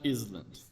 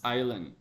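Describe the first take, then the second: First: An S sound is pronounced in the middle. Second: No S sound is pronounced in the middle. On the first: The speaker calls it wrong. "Not island" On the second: The speaker calls it right. "Don't say the S. Ignore the S"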